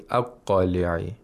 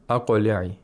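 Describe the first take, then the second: First: The qaf sound is held and dragged out. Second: The qaf is released quickly with a bounce. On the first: The speaker calls it wrong. "You don't say aqli'i" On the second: The speaker calls it right. "whenever you pronounce the qaf, the articulator has to come apart quickly"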